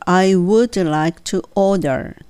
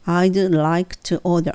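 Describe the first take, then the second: First: The word would is said in full. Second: The word would is contracted to a d sound. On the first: It puts extra emphasis on the request. The speaker calls it wrong. "ネイティブはI would like to というふうには言わないです" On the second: It is a plain, ordinary request. The speaker calls it right. "そこのところはもうI'd ですよね"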